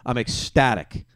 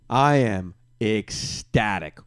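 First: Said in the usual way. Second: Slow and savoured. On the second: Real, not acted.

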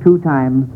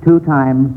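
The two takes are said the same way.

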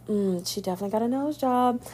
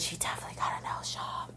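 First: Said in the usual way. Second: A secretive whispered aside. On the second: Real, not acted. Host whispers the nose job gossip to listeners.

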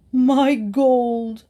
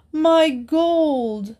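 First: Louder, higher, wailing miser voice; wild cry. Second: Desperate wail. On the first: Miser crying out over his stolen gold, wild wail. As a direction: wail it out like he's been robbed. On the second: Miser crying out again for his lost gold, desperate wail. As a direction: let the second cry break higher in despair. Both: A narrator's reading. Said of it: "cried the miser wildly".

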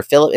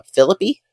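First: Philip, ending on the p; silent final E. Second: Phillippe with a final "ee", pitched up; E pronounced at end. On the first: Podcaster correcting the character's name, Philip without a final E. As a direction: say Philip with no "ee" after the p. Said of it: "that's probably not meant to be pronounced". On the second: Podcaster guessing a character's name, Phillippe with the E sounded. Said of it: "doing the stupid pronouncing the E at the end". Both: Real, not acted.

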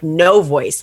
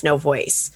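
First: Said in the usual way. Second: Fading to nothing. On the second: Shown as a demonstration. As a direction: voice dropping away, softer.

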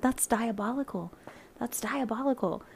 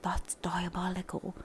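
First: Voiced, hammed-up British accent on "That's diabolical", said twice with a falling end; bad British accent. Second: Put-on a hushed, lightly done British accent on "That's diabolical"; whispered British accent. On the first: Imitating the British guy's catchphrase, bad British accent. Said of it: "terrible British accent". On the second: Imitating the British guy from The Boys, hushed British accent. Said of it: "probably a terrible British accent".

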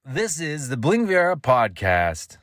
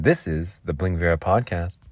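First: High, slow, swooping ident; big drawn-out announcer take on "This is the Bling Viera podcast"; announcer inflection. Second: Said in the usual way. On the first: Shown as a demonstration. Podcaster finishing his practice, grand announcer inflection. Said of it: "No more practicing on this platform". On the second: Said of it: "You put some different inflection".

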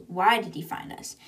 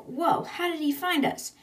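First: "why" leaned on, falling question; stress on why. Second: High-pitched, amazed retelling; startled question. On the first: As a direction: put the weight on "why" and let the rest fall. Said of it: "The question is". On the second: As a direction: act out astonishment with a lifted voice. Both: Retold or imitated.

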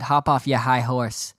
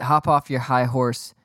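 First: Mock New York accent, dropping the r in "your"; slow, imitated New York accent. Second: Said in the usual way. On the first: Rangers fan on Twitter scolding him, mock New York accent. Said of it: "in a New York accent". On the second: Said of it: "Actually, he said".

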